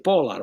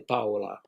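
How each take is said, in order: First: The name has an English-style pronunciation. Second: The name has a Spanish-style pronunciation. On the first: This is how the name is normally said in English. "We say Paula" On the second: This is how the girl said her own name. "in English, we don't say Paula"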